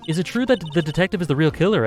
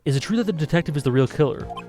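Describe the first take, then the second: First: It is said in an exaggerated Canadian accent. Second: It is said in the speaker's plain accent. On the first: "I just gotta in- increase my Canadian accent" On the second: "Oh, I need to stop"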